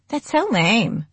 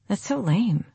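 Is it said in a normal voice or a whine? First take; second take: whine; normal. First: It is said in a whiny voice. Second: It is said in a normal voice.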